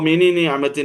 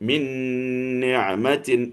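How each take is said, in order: First: The first n is released separately with a vowel. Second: The two n sounds merge into one nasalized n. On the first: The speaker calls it wrong. "എന്ന് പറയാണ്ട്" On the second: The speaker calls it right. "എന്നാണ് പറയുക"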